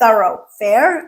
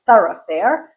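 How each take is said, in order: First: It is said with an American accent. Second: It is said with a British accent.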